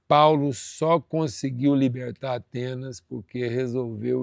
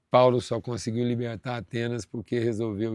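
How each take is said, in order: First: It is spoken very slowly and deliberately. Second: It is spoken at an ordinary, quicker pace.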